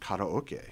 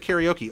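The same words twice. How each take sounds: First: It is said with a Japanese pronunciation. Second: It is said with an English pronunciation. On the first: The speaker calls it wrong. "I'm not gonna walk and go, let's go sing karaoke in Berkeley" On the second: The speaker calls it right. "we're going to say karaoke"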